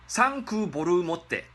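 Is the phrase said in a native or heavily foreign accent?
heavily foreign. The phrase is said in a heavy foreign accent. The speaker calls it wrong.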